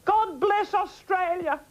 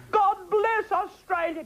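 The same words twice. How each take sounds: First: Higher, slow, ringing sign-off blessing; high slow benediction to the viewers; grand farewell blessing. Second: Higher, slow, laughing through God bless Australia; high slow blessing breaking into a laugh. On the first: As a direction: bless the nation with a grand flourish. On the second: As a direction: repeat the blessing while laughing. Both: Acted.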